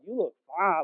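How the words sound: It is said admiringly, with stretched syllables.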